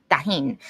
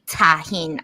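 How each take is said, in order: First: Tajín starting almost like a D, "dah-HEEN"; lower, casual "Tajín" with D-like onset; soft D-like T. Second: Tajín with a clear, crisp T at the start; careful "Tajín", T fully sounded. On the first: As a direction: soften the T of Tajín into a D. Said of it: "it sounds like a D". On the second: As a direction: pronounce Tajín carefully as "tah-HEEN", hard T. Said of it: "I don't really say Tajín". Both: Shown as a demonstration.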